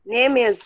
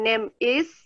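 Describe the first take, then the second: First: The final consonant runs straight into the vowel. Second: The two words are said separately, not joined. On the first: The speaker calls it right. "Is itu boleh disambung. Name is jadinya" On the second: The speaker calls it wrong. "Jadi bukan bacanya bukan name is"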